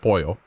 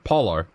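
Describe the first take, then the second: First: The double L sounds like a Y. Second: The double L sounds like an English L. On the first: The speaker calls it right. "it's pronounced P-O-Y-O" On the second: The speaker calls it wrong. "they would have said polo"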